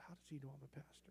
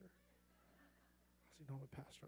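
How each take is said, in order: First: Muttered thought. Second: Slow, breathy whisper to himself; a hushed, puzzled aside to himself; whispered thought. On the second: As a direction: whisper the question under your breath. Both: Retold or imitated. Private thought, repeated twice.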